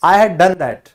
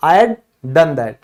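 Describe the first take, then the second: First: "I had" with both words said in full; "I had" spelled out in full, not contracted; full form I had. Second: "I had" squeezed into "I'd", slow and deliberate; "I had" run together into a single "I'd" sound; contracted I'd. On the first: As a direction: say "I had done that" with "had" kept whole, the form you won't hear. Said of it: "कभी भी I had नहीं सुनोगे". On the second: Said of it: "वो होता है I'd". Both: Shown as a demonstration.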